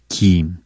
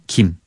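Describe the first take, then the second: First: The vowel is said long. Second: The vowel is said short. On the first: It is the edible seaweed. "길게 장음으로 얘기하는 건 김" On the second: It is the family name. "짧게 얘기하는 거는 김"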